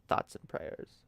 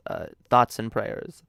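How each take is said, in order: First: Breathy whispered thoughts and prayers; a soft mocking whisper of "Thoughts and prayers". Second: Said in the usual way. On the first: Shown as a demonstration. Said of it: "repeated in a whisper". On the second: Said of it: "thoughts and prayers repeated".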